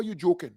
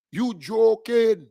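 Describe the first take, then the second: First: Said in the usual way. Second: Drawn-out slow yell of disbelief; scoffing shout. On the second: Real, not acted. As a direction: stretch it out and shout it at them. Scoffing at opponents, repeated louder.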